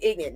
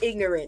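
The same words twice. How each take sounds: First: The word is said in a clipped, casual way. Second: The word is said in full, standard form. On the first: "I said ignorant" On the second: "not ignorant"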